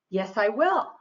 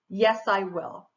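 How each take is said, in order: First: It is said positively, with eager inflection. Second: It is said flatly, with no inflection. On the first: "That sounds positive and, you know, like you want to do it" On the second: "I didn't put any inflection or anything"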